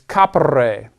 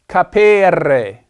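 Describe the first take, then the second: First: The middle E is short. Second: The middle E is long. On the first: The speaker calls it right. "This E is a short E" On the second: The speaker calls it wrong. "It's not capere. Do not mispronounce that infinitive"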